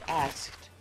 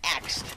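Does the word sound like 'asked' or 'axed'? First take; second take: asked; axed. First: The 's' comes before the 'k', sounding like 'asked'. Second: The consonants are swapped, sounding like 'axed'. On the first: The speaker calls it right. "it's asked" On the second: The speaker calls it wrong. "You went axed. Like the tool"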